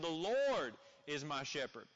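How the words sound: The stress falls on the word 'is'. God is alive and present right now. "placing emphasis on the simple fact that, man, you have a God who lives"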